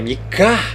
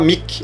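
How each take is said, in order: First: The name ends with an 'a' vowel sound. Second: The name ends on a consonant, no final vowel. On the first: The speaker calls it right. "Vai ter o som de Ar no final" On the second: The speaker calls it wrong. "Você não vai falar Mik"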